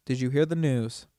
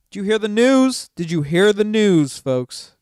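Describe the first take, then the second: First: Said in the usual way. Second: High and loud, showman's shout; loud hype call. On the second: Acted. Streamer announcing to viewers, loud showman call. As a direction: sell it to the crowd.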